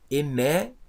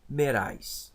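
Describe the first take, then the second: First: The word starts directly with a vowel. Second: The word starts with a breathy h sound. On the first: "Eu vou ler sem aspiração" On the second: "eu vou falar como se ela tivesse um H"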